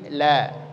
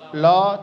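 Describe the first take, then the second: First: The la is light, with a smile. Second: The la is heavy and dark. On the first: The speaker calls it right. "tapi la, senyumkan" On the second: The speaker calls it wrong. "la tidak"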